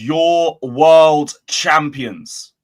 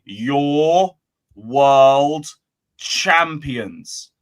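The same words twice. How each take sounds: First: It is said at a normal pace. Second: It is said slowly and deliberately.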